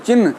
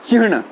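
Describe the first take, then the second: First: The word is said in the common loose way. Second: The word is said in the careful, precise way. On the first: The speaker calls it wrong. "चिन्ह नहीं" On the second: The speaker calls it right. "चिन्ह शुद्ध उच्चारण कीजिए"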